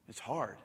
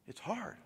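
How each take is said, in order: First: Quiet admission. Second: "hard" lifted high but hushed; soft rising repeat. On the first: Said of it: "It's hard, but we can do it". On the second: Pastor repeating to the church, hushed rising echo. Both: Real, not acted.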